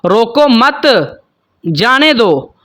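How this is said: The pause comes later, after मत.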